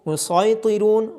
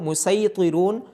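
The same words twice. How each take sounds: First: The s sound is heavy and emphatic. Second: The s sound is thin and light. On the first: "मोटी आवाज़ के साथ भी पढ़ा जा सकता है" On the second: "बारीक आवाज़ के साथ भी पढ़ा जा सकता है"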